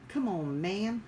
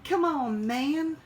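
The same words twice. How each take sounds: First: Mild Biden-style come on man; lightly imitating Biden; Joe Biden. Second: Loud, high hammed-up come on man; exaggerated Biden catchphrase; Joe Biden. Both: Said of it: "I sound like Joe Biden".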